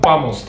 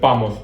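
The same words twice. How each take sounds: First: The final S is clearly pronounced. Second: The final S is dropped. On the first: "İspanyollar vamos derler" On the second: "Hani sanki S yokmuş gibi"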